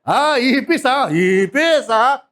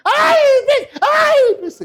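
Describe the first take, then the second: First: Calm authority. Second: Very high loud shriek at a cockroach; hammed-up scream of fear at a cockroach; panicked shriek. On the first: Shown as a demonstration. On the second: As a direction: scream in mock terror at a bug. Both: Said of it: "Hindi gano'n".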